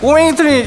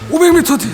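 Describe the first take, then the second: First: It is said in a babbling baby's voice. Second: It is said in an old man's voice. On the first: "애기는 가끔 옹알이 섞여요" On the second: "할아버지는 오백 미터 뒤 좌회전 이렇게 가고"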